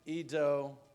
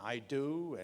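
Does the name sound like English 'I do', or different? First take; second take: different; I do. First: The name does not sound like English 'I do'. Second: The name sounds like the English words 'I do'. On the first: This is how the owner says the name. The speaker calls it right. "My name" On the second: Others misread the name as English words. The speaker calls it wrong. "pretty badly mispronounced by many Americans"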